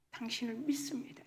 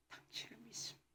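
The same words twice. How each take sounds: First: Said in the usual way. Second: Breathy whispered confession; hushed, intimate 믿습니다 almost without voice. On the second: Shown as a demonstration. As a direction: whisper 당신을 믿습니다 as a private prayer. Same confession repeated as whisper.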